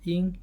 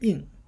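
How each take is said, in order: First: The pitch stays high and level. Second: The pitch falls sharply from high to low. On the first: "first first tone" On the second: "fourth would be in"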